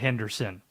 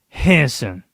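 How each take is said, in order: First: The name is said with three syllables. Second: The name is said with two syllables. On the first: This is the usual pronunciation from the spelling. "You know how Henderson is spelled" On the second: This is how local people say it. "It is two syllables the way that people from Henderson pronounce it"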